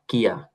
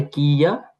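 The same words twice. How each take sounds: First: "কিয়া" as one short kya; merged into one syllable. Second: "কিয়া" stretched as ki-ya, rising; two parts, then joined. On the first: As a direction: clip "কিয়া" into a single beat. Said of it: "মিলে হয়েছে কিয়া". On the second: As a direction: sound out both parts of "কিয়া". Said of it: "কি ইয়া মিলে হয়েছে". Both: Shown as a demonstration.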